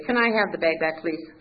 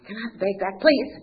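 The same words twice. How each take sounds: First: Said in the usual way. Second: Insistent request, higher and louder on please; ego taking over. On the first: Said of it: "And I'd say". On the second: Retold or imitated. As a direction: demand it back, punching the final please. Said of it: "my ego would take over".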